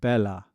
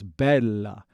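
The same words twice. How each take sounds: First: The L sound is short and single. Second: The L sound is held longer, doubled. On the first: The speaker calls it wrong. "It's not bella" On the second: The speaker calls it right. "spend a little extra time on the doubled consonants"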